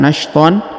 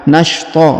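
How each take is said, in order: First: The word ends in an 'an' sound with n. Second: The word ends in a plain 'a' vowel. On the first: The speaker calls it wrong. "bukan nashton" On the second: The speaker calls it right. "menghilangkan tanda an-nya menjadi a"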